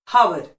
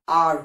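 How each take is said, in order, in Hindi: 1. शब्द की शुरुआत एक साफ़ सुनाई देने वाली h ध्वनि से होती है। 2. शब्द सीधे एक स्वर ध्वनि से शुरू होता है। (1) "ये चारों ही प्रोनाउंसिएशन बिल्कुल गलत है" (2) "एच साइलेंट है"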